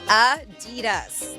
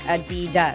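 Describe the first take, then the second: First: The stress is on the first syllable. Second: The stress is on the second syllable. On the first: The speaker calls it right. "the slight emphasis on the first syllable" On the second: The speaker calls it wrong. "stressing the second"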